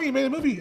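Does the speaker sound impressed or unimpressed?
unimpressed. It sounds flat and unimpressed. Making a movie is common and no one cares. "And now it's like, oh"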